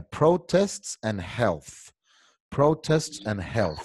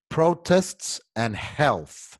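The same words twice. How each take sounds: First: Slow model reading. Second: "Protests and Health" said very slowly and clearly; slow, deliberate "Protests and Health" for the class to repeat; slow model reading. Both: Shown as a demonstration. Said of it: "Quiero que todo el mundo me diga".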